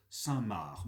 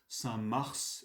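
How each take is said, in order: First: The name ends with a k sound. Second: The name ends with an s sound. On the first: "et d'autres Saint-Marc" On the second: "certains prononcent ce nom Saint-Mars"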